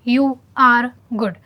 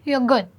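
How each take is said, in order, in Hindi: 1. हर शब्द पूरा और अलग-अलग बोला जाता है। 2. पहले दो शब्द आपस में जुड़कर, छोटे रूप में बोले जाते हैं। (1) "आपको पूरा ऐसे नहीं बोला है" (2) "सिंपली यू कैन से"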